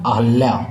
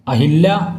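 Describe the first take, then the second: First: No vowel follows the 'h' sound. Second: An 'i' vowel follows the 'h' sound. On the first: The speaker calls it right. "अहल्या होगा" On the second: The speaker calls it wrong. "अहिल्या ना होकर अहल्या होगा"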